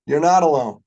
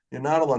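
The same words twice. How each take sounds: First: Louder, punching the word not; emphatic reassurance. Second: Said in the usual way. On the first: Real, not acted. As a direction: land it hard so the room feels it.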